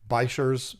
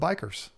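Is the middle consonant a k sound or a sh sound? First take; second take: sh sound; k sound. First: The middle consonant is a sh sound. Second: The middle consonant is a k sound. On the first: The speaker calls it wrong. "if you want to be a weirdo and call them that" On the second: The speaker calls it right. "I like saying bikers because it's cool"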